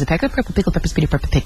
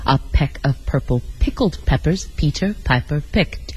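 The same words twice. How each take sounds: First: It is said extremely fast. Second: It is said slowly, word by word.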